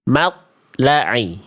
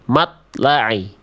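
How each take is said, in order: Both takes have the same delivery.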